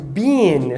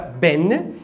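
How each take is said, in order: First: The word is said in its full form. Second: The word is said in a reduced form.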